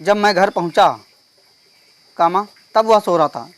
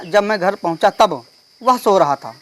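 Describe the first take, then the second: First: Long comma pause after "पहुंचा", before "तब". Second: Slow reading, comma pause after "तब". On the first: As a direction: break the sentence right after "पहुंचा". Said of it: "कामा, ... यहाँ पे गलत हो जाएगा". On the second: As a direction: run "पहुंचा" into "तब", then pause. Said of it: "तब के बाद विराम चिन्ह लगना चाहिए". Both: Shown as a demonstration.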